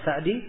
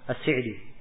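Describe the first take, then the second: First: The first vowel is an open 'a'. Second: The first vowel is not an open 'a'. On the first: The name traces back to Sa'ad bin Zaid. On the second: The name traces back to Amr bin Zaid.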